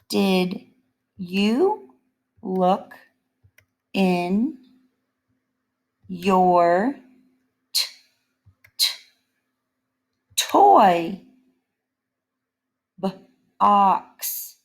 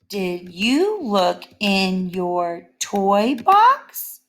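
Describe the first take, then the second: First: It is read slowly, sounding out a word. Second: It is read quickly and smoothly throughout. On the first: "when I sound out words" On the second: "I read it quickly"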